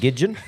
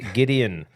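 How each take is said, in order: First: The middle consonant is a 'j' sound. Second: The middle consonant is a plain 'd' sound. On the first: This is a mispronunciation of the name. The speaker calls it wrong. "I called him Gidgeon" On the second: This is the name's actual pronunciation. The speaker calls it right. "His name is Gideon"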